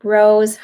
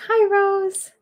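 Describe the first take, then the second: First: Said in the usual way. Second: Much higher, lilting hello to Rose; high sweet greeting to a spirit. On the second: Real, not acted. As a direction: sing out the hello like greeting a friend.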